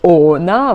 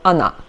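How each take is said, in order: First: The first vowel is a full O sound. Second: The first vowel is reduced and weak. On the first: The speaker calls it wrong. "we pronounce it not O-na" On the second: The speaker calls it right. "it's re re reduced letter"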